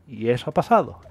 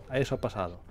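First: Said in the usual way. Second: Softer and lower, repeated to himself; quiet echo. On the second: Shown as a demonstration. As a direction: let it drop to a quiet aside. Repeats line, second time hushed.

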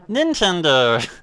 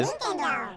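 First: Slow, stretched Nintendo! in a mock announcer voice; lazy booming Nintendo!; drawn-out announcer call. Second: Squeaky falsetto call of Nintendo!; tiny high-pitched Nintendo!; mock Nintendo jingle. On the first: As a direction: drag Nintendo! out like a game announcer. Repeats the startup call. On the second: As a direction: chirp Nintendo! way up high like the startup voice. Mimicking the game's startup call.

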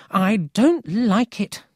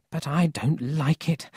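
First: Slow, high and loud, with DON'T punched; worried repetition. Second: Higher voice at normal volume; first, more restrained worried statement; worried grandmother. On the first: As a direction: insist on DON'T, stretching the words out. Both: A narrator's reading. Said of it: "she always said things twice".

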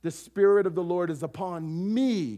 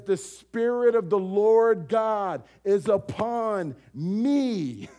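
First: A touch of personal claim, chest-struck; lightly voiced Jesus claiming the words. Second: Slow, loud, weighty proclamation of the scroll; loud, slow solemn scripture reading; reading as Jesus. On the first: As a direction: say it as if it's about yourself. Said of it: "And he says this". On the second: Acted. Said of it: "He says".

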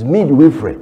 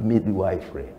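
First: "midwifery" firmly as mid-WIFF-ree, louder; correct pronunciation. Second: "midwifery" said as mid-ee-WIFE-ree; mispronunciation. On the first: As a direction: say midwifery with a short, emphatic "wiff". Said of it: "It's not midwifery". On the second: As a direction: put a full "wife" inside midwifery. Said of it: "African mispronunciation". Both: Shown as a demonstration.

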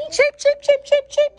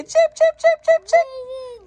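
First: Chanted, much higher, loud sing-song cheap cheap cheap. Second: Put-on much higher, slow babyish cheap cheap cheap; imitating baby. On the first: Pretend. Mom leading viewers in a high chant. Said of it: "Say it with me, Peach Patch". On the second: Mom imitating her baby slowly and much higher. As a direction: stretch out cheap cheap cheap like a toddler. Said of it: "Baby say".

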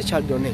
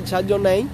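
First: Chardonnay ending in a pure "né"; his pronunciation. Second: Chardonnay ending in a gliding "nei"; viewers' version. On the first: Streamer laying down the rule to viewers, Chardonnay ending "né". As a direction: say Chardonnay as "char-do-né". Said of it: "Se dice como es". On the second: Streamer contrasting the viewers' way, Chardonnay ending "nei". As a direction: say Chardonnay as "char-do-nei", rising. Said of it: "ustedes dicen Chardonnay". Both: Shown as a demonstration.

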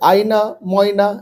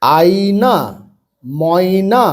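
First: আয়না, ময়না each said in one go; quick reading. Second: আয়না, ময়না stretched syllable by syllable; slow, broken reading. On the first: Teacher showing pupils how to speed up, read quickly. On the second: Teacher showing beginners the first step, read slowly. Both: Shown as a demonstration. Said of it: "তাহলে এবার তাড়াতাড়ি পড়বে".

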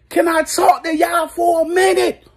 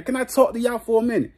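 First: Shouted high, straining to be heard. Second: Said in the usual way. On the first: Real, not acted. Fan yelling to get everyone's attention, high shout. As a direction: yell over the noise for attention.

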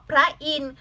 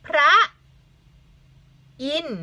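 First: Said in the usual way. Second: "พระ... อินทร์" with a long pause between; syllable by syllable. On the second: Shown as a demonstration. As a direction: sound out "พระ" and "อินทร์" separately, teacher-style. (อ่านแยกคำ "พระ - อินทร์" ช้าๆ) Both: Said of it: "คำนี้".

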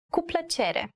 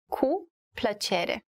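First: Said in the usual way. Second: "Cu", a pause, then "plăcere"; slow teaching model, split after "Cu"; slow word-by-word. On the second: Shown as a demonstration. Teacher breaks up the phrase for learners, slow and separated.

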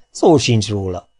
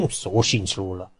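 First: Said in the usual way. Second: "Szó sincs róla" said through a soft laugh, slow; laughing denial. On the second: Real, not acted. Narrator answering his own question about her, laughing softly. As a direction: chuckle while saying Szó sincs róla.

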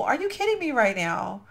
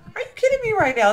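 First: Said in the usual way. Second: High, loud, fast disbelief; excited squeal. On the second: Real, not acted. Repeating about the pool, loud high squeal of disbelief. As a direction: burst out the repeat much higher.

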